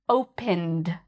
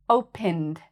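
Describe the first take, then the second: The two takes are said the same way.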